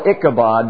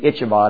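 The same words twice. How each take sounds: First: The middle consonant is a hard k sound. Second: The middle consonant is a ch sound. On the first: "I call it Ichabod" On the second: "some say since it's C-H, it should be Ichabod"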